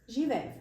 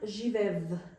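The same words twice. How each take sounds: First: The final consonant sounds like f. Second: The final consonant sounds like v. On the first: The speaker calls it right. "is pronounced as f actually" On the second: The speaker calls it wrong. "It's not živev"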